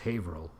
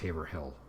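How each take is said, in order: First: The name is said differently from its spelling. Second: The name is said just as it is spelled. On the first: This is how locals say it. The speaker calls it right. "we're so used to pronouncing it as Haverhill" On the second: This is how an outsider would guess it. The speaker calls it wrong. "it looks like it's pronounced Haverhill"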